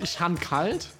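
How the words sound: It is said in Saarland dialect, with 'han'.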